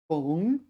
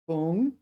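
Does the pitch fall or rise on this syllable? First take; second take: rise; rise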